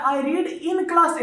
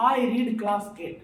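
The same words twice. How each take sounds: First: I read in class eight said very slowly, stressing class; slow correct version. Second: I read class eight said very slowly, without in; slow wrong version. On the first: Teacher giving students the correct sentence, slow and deliberate. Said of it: "तो ये कह रहा है". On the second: Teacher showing students the sentence without in, slowly. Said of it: "अगर in नहीं रहता". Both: Shown as a demonstration.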